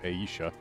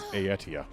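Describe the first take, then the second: First: The name is said without a hard T. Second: The name is said with a hard T. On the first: This is how the speaker used to say it. "which I had previously pronounced as" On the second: This is how the game's voice acting says it. "they pronounced it in voice as ... I know they had a hard T"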